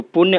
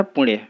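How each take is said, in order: First: पुण्य said 'pur-ne', with a plain n; wrong form. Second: पुण्य said 'pu-ṇye' with retroflex n; corrected form. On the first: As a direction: say पुण्य with a dental n, like purne. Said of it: "अशुद्ध है". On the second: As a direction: curl the tongue back for the n of पुण्य. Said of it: "शुद्ध होता है". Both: Shown as a demonstration.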